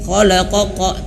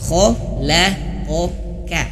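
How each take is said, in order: First: Both the middle and final k are heavy. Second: The middle k is heavy, the final k light. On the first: The speaker calls it wrong. "jangan sampai khalaqoqa, tidak" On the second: The speaker calls it right. "qafnya ini ada dua, qaf dan kaf ya. Jadi tebal dan tipis"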